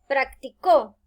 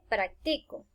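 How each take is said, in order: First: The stress is on the last syllable. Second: The stress is on the middle syllable. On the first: Someone did it in the past. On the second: I do it now.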